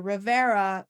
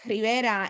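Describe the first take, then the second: First: The name is said with an English pronunciation. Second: The name is said with a Spanish pronunciation. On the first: This is how native English speakers say it. "I don't say Rivera" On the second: This is how the owner of the name says it. "my last name is Rivera"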